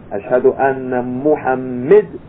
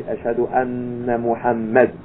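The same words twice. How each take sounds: First: "Ashhadu anna Muhammad" with the mistaken vowel in Muhammad; "Muhammad" said the wrong way, slowly; wrong form. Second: "Ashhadu anna Muhammad" with the proper vowel, anna doubled; "Muhammad" said properly, gently; correct form. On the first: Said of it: "We shouldn't say". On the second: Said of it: "We should say". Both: Shown as a demonstration.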